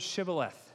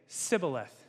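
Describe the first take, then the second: First: The word begins with a 'sh' sound. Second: The word begins with a plain 's' sound. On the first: The speaker calls it right. "Say the word Shibboleth" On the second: The speaker calls it wrong. "They couldn't say the sh part of it"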